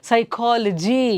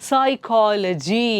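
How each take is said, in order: The two takes are said the same way.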